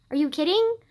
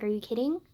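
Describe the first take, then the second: First: Louder, higher disbelieving question; incredulous, rising challenge. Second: Said in the usual way. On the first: Real, not acted. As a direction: repeat it in mounting outrage. Repeats question in mounting disbelief.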